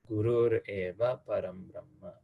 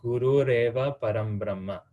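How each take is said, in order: First: No r sound links guru to eva. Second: An r sound links guru to eva.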